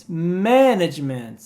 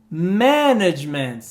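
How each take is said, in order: Both takes have the same delivery.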